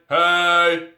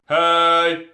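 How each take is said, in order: The two takes are said the same way.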